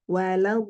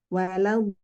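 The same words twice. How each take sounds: No difference in how they are said.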